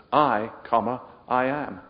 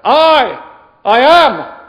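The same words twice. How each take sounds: First: Said in the usual way. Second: "I", then "I am", each shouted high; emphatic I AM. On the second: Shown as a demonstration. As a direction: boom out "I" and "I am" as separate blows. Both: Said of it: "See the emphasis there".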